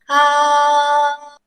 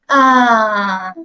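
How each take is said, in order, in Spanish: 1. El tono se mantiene alto y plano. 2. El tono cae bruscamente hacia abajo. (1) "el primer tono yo siempre lo comparo a cantar en el coro" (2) "es como de alivio"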